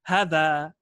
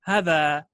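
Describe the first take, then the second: No difference in how they are said.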